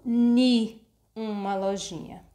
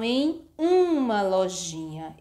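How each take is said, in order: First: The first word is pronounced 'ni'. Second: The first word is pronounced 'em'. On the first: The speaker calls it wrong. "e não ni uma lojinha. Ni simplesmente não existe" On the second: The speaker calls it right. "O correto seria ter dito assim"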